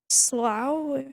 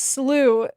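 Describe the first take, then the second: First: The word rhymes with cow. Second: The word rhymes with new. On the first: This is how some in New England say it. "you may hear it pronounced in a way that rhymes with cow" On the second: This is how most of the US says it. "In most of the U S, it's slew"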